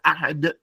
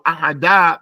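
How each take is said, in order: First: The final consonant ends with a slight echoing bounce. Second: The final consonant is followed by a full vowel. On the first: The speaker calls it right. "but it's" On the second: The speaker calls it wrong. "It's not"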